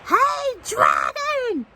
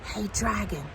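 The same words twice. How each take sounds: First: It is shouted very loudly. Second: It is whispered very softly.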